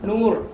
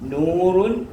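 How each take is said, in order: First: The word ends abruptly on the r sound. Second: The word ends with the full -run ending.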